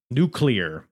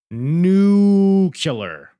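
First: Said in the usual way. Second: Loud, high, stretched-out "Nuclear"; exaggerated nuclear. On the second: Shown as a demonstration. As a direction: belt out "Nuclear" with a long, high first syllable. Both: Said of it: "wife hates when I say nuclear".

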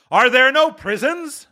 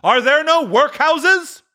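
First: High, biting question; mocking spirit. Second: Very high, slow, loud scorn; scornful spirit. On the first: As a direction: throw his words back. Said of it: "said the spirit". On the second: Acted. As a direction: throw back his words harder. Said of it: "with his own words".

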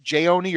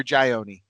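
First: Jayoni said "jay-OH-nee"; first pronunciation option. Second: Jayoni said "jai-OH-nee"; alternative pronunciation. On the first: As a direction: say Jayoni with a "jay" opening and long "oh". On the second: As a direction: say Jayoni with its opening rhyming with "eye". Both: Shown as a demonstration. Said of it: "Is it Jayoni or Jayoni?".

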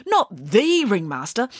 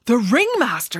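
First: THE drawn out as "thee", high; stress on THE. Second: High, startled cry; shocked exclamation. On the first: Boy checks which ringmaster is meant, THE stressed as "thee". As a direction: lean slowly on THE, said "thee". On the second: Boy interrupts the storyteller, shocked exclamation. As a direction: exclaim it in alarm. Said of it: "exclaimed Michael". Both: Acted.

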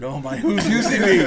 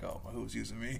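First: High, loud mock panic; loud freaking out. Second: Soft, fretful aside to himself; muted freaking out. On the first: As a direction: burst out in hammed-up alarm. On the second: Retold or imitated. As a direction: fret under the voice, much softer. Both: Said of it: "I was just freaking out".

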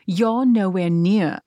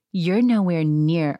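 First: Slow, drawn-out mock British accent. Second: Said in the usual way. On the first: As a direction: imitate her with a put-on British accent. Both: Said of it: "I'm not doing the British accent".

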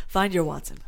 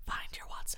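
First: Said in the usual way. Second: Breathy whispered repeat. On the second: Shown as a demonstration. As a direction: whisper it softly. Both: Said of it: "repeated as whisper".

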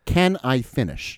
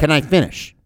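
First: Slow, drawn-out exasperated demand; exasperated insistence. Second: Higher-pitched, exasperated demand to talk; exasperated interruption. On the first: Deposed witness mimicking an interrupted exchange, slow and exasperated. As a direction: spell it out slowly, like a fed-up spouse. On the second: Deposed witness mimicking an interrupted exchange, exasperated. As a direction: cut in like a fed-up spouse arguing. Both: Retold or imitated. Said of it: "like a bitter wife having an argument".

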